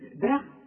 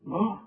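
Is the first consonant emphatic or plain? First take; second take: plain; emphatic. First: The first consonant is a plain, light d sound. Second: The first consonant is a heavy, emphatic d sound. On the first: The speaker calls it wrong. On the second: The speaker calls it right.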